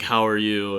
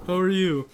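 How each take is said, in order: First: Said in the usual way. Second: Imitated students. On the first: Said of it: "I usually ask". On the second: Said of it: "And then they're like".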